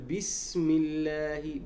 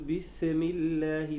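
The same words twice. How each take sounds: First: The s is held silent with a hissing whistle. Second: The s carries a slight vowel after it. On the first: The speaker calls it right. "لاحظ الصفير مشى والهمس مشى" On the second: The speaker calls it wrong. "يختلس الحركة للسكون ... هذا خطأ"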